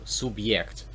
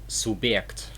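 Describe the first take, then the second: First: A y glide plus e follows the b. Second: A plain e sound follows the b. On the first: The speaker calls it right. "this is definitely pronounced as year" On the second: The speaker calls it wrong. "So it won't be a year, it will be an e"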